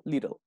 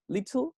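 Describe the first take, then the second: First: "little" as "LI-rel", tongue flicked for the T; little with flapped T. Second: LITTLE with a crisp t sound, "lit-tl"; "little" as "LIT-tul", T fully sounded; little with clear T. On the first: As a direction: pronounce the t in "little" as a quick tap. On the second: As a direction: pronounce the t in "little" as a true T. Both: Shown as a demonstration. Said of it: "del acento que se use".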